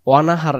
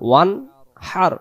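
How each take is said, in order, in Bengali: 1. n ও h-এর মাঝে একটা অতিরিক্ত স্বরধ্বনি ঢোকানো হয়। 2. n সরাসরি কোনো স্বরধ্বনি ছাড়াই h-এর সঙ্গে মিশে যায়।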